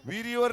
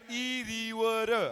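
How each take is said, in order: First: Said in the usual way. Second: इरीवर very slowly, every vowel stretched; correcting pronunciation. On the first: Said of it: "विहिरीवर नाही". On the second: Shown as a demonstration. Host teaches a child the dialect word, इरीवर slow and drawn out. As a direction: stretch out इरीवर without the opening v sound. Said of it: "विहिरीवर नाही, इरीवर".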